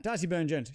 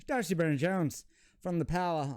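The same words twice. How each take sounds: First: Said in the usual way. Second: A light put-on Irish accent on the player's name. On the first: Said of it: "the last accent I'll ever do". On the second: Card opener naming a pulled player in a light Irish accent. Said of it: "that is the last accent I'll ever do".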